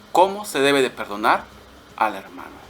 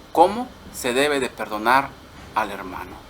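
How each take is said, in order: The two takes are said the same way.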